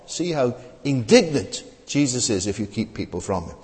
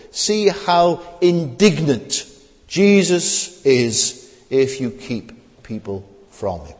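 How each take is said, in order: First: Said in the usual way. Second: Drawn out slowly, each word weighed; slow down and press the point home; slow emphatic point. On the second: Shown as a demonstration. Preacher to congregation, slow and emphatic.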